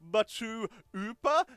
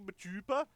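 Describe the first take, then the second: First: There is a gap in the middle. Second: It is said smoothly without a gap. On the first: "is there a, spa, a gap in there?" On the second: "Is it just meant to be machupa?"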